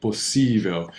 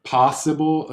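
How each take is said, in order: First: "possível" with weak first O and stress on "sí". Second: "possible" said as in English, stress on "pos"; wrong English way. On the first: Teacher showing the right stress after the wrong one. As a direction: lean on the I in "possível". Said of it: "the stress is gonna be on this I". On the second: Teacher showing students their mistake. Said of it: "you're sounding like you're saying possível". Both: Shown as a demonstration.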